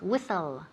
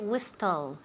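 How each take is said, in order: First: The t sound is silent in the middle. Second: The t sound is pronounced in the middle. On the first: The speaker calls it right. "The T is silent" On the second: The speaker calls it wrong. "We never say whistle"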